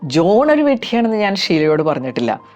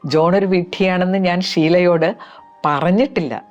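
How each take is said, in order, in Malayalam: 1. Stress ഉള്ളത് ജോൺ എന്ന വാക്കിലാണ്. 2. Stress ഉള്ളത് പറഞ്ഞിട്ടില്ല എന്ന വാക്കിലാണ്. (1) "ജോൺ എന്ന ഭാഗത്തിന് സ്ട്രെസ് കൊടുത്ത് ഇതൊന്ന് റിപ്പീറ്റ് ചെയ്യാം" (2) "ഇതുവരെ എൻ്റെ നാക്കുകൊണ്ട് പറഞ്ഞിട്ടില്ല"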